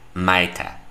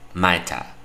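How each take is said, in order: No difference in how they are said.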